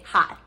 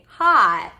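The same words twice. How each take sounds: First: The vowel is short and rushed. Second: The vowel is held out long. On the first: The speaker calls it wrong. "we don't want to say hot" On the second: The speaker calls it right. "We want to say hot"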